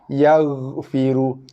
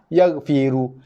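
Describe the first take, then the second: First: The gh sound is soft with a slight trail. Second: The gh sound is made hard and tense. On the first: The speaker calls it right. "Dia bunyi berekor sikit" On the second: The speaker calls it wrong. "dikeraskan huruf ghin tu"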